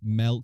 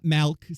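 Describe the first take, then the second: First: The vowel sounds like the 'e' in 'Mel'. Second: The vowel is a broader 'a' sound. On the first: This is how the speaker says it. The speaker calls it right. "It's Melk, like Melk Gibson" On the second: This is how some other people say it. The speaker calls it wrong. "It's not Malk. Some people say Malk, but that's not me"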